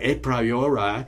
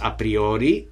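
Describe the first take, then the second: First: It is pronounced with English-style vowels. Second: It is pronounced with Spanish-style Latin vowels. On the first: The speaker calls it wrong. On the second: The speaker calls it right. "which is the way real Latin is pronounced. And also in Spanish"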